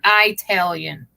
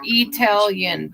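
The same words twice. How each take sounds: First: The word begins with an 'eye' sound. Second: The word does not begin with an 'eye' sound. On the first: The speaker calls it wrong. "but not Italian. ... No I" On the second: The speaker calls it right. "Italian or Italian"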